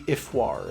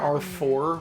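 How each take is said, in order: First: It starts with 'ee' and has a French-sounding ending. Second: It sounds like the letter R and four. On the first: This is how it would sound in proper French. "if we were pronouncing it in proper French" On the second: This is how the game says it. "They're they're calling her R four"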